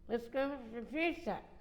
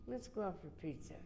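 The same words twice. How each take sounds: First: It is said loudly. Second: It is said quietly.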